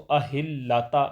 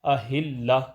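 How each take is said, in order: First: The word ends with a t sound plus vowel. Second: The word ends with a soft h sound. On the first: The speaker calls it wrong. "ऐसे इसको अहिल्लाता नहीं पढ़ेंगे" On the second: The speaker calls it right. "यहाँ इसको हा से बदल देंगे ... अहिल्ला पढ़ेंगे"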